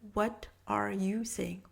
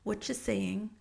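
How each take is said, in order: First: The word 'are' is clearly pronounced. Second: The word 'are' is dropped in fast speech.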